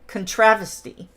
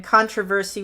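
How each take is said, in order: First: Contravesty, stressed on the second syllable, "con-TRAV-esty"; contravesty as a squished British controversy, "con-TRAV-esty"; British squished pronunciation. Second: Said in the usual way. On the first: Shown as a demonstration. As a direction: move the stress in contravesty to TRAV and squash the rest. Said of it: "the Brits like to squish words". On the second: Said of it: "controversy would be".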